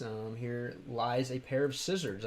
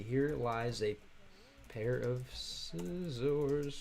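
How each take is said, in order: First: Said in the usual way. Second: Slow careful reread. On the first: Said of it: "I believe, right?". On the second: Shown as a demonstration. Rereading the chat message to viewers, very slow and careful. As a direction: stretch each word out very slowly. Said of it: "it's gotta be".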